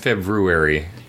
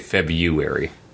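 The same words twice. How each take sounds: First: The first R sound is clearly pronounced. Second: The first R sound is dropped. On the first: This is how the word is supposed to be said. "It's February" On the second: This is how people usually say it in everyday speech. "but we say February"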